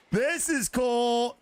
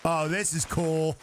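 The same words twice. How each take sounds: First: Higher, slow, drawn-out this is cool; excited repeat. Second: Said in the usual way. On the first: Real, not acted. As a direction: stretch it out with delight. Repeats it after a laugh.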